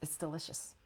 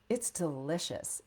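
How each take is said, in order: First: It is said in a casual conversational voice. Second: It is said in a formal announcer voice. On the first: The speaker calls it right. "I trust that you can hear the difference" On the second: The speaker calls it wrong. "That is not a conversational tone, right? That's that's announcer sounding"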